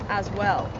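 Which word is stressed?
well. The stress is on the word well. This is how the speaker's own people say it. "we we put the emphasis on"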